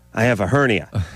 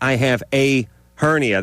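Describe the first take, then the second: First: The article is a weak 'uh' joined on. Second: The article is a full, clear 'ay' sound. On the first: "they say uh" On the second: "They don't say a"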